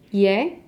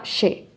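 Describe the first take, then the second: First: The consonant is pronounced softly, like a y. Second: The consonant is pronounced like an sh sound. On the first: This is how it sounds in Spain. "in Spain, they pronounce it a little bit softer" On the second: This is how it sounds in Argentina. "in Argentina, they do more like sha"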